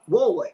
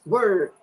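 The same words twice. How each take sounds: First: "Ward" with the R nearly dropped; word with an A. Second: "Word" with an ER vowel; "Word" rhyming with bird; usual word. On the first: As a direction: say "Ward" as WAW-d. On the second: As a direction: say "Word" as WURD. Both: Shown as a demonstration. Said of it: "you guys say it with an A".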